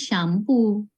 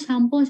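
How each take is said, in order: First: It is said with an English accent. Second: It is said with an Indonesian accent. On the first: "Kalau orang Inggris ya bilangnya shampoo" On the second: "kalau yang bilang shampoo orang Indonesia"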